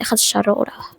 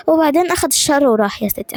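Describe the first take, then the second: First: Softer whispered blessing. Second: Said in the usual way. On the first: Acted. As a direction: breathe the words like a quiet charm. (همس هادي)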